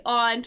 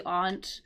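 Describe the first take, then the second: First: Aunt with a short A, as in "ant"; variant pronunciation. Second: Aunt with an open AH vowel; own pronunciation. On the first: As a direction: say aunt to rhyme with "pant". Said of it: "some people will say aunt". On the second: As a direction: say aunt like "ahnt". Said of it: "I say aunt". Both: Shown as a demonstration.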